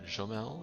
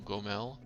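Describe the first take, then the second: First: It starts with a soft French j sound. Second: It starts with a hard g and has no r. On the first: "Put a little bit of a French accent on it" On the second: "Gomel, not Gormel"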